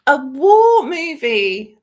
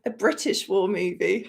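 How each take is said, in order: First: Slow, loud, high stretched war movie; dramatic announcement. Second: Said in the usual way. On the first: Shown as a demonstration. Revealing the genre to chat, trailer-style emphasis.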